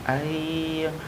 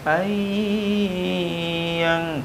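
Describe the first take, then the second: First: The nasal sound is held only briefly. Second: The nasal sound is drawn out too long. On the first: The speaker calls it right. "jangan panjang-panjang" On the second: The speaker calls it wrong. "Jangan ayyang"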